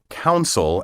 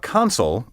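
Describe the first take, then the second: First: The first syllable sounds like 'coun'. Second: The first syllable sounds like 'con'. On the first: The speaker calls it wrong. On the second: The speaker calls it right.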